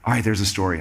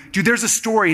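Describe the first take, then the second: First: Low-pitched, grudging concession; mock-resigned admission, pitched well down; reluctant giving in. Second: Pitched-up, pressing nudge; acted-out insisting, slightly high; playful insistence. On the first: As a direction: imitate a friend caving, voice dropped. Acting Miles reluctantly giving in. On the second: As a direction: coax a friend who is holding back. Acting himself pressing Miles.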